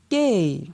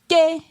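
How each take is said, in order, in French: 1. La syllabe est prononcée sur un ton descendant. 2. La syllabe est prononcée sur un ton haut. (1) "Ton descendant" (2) "Ton haut"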